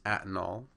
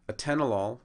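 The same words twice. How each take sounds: First: Atenol as two syllables, AT-nol; stress on first syllable. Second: Atenolol with TEN stressed, a-TEN-o-lol; stress on second syllable. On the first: Lecturer showing a common drug-name error, atenol stressed on first syllable. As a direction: mispronounce it as atenol, hitting AT first. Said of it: "atenol now has". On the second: Lecturer showing the correct drug name, stress on second syllable of atenolol. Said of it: "on the second syllable". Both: Shown as a demonstration.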